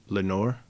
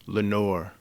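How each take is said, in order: First: Soft, low questioning call, still voiced; mock whisper. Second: Soft, low answer, falling away; murmured echo. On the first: The whispered word in the poem, softly voiced question. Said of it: "This I whispered". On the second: An echo murmured back the word, soft and low. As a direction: echo the name back quietly, without questioning. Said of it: "an echo murmured back the word". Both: A narrator's reading.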